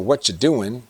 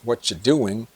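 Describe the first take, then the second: Both takes have the same delivery.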